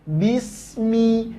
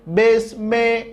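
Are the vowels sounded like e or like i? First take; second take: i; e. First: The vowels sound clearly like i. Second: The vowels sound like e. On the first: The speaker calls it right. "tapi bismi, jelas baris bawahnya" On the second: The speaker calls it wrong. "Jangan bismillah, mel, besme"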